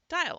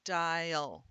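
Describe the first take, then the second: First: Said in the usual way. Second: "dial" slowly stretched as die-ul; sounded out. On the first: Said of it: "I'm gonna dial it up". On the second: Shown as a demonstration. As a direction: stretch "dial" over two syllables, schwa before the L. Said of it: "I'm gonna split them up".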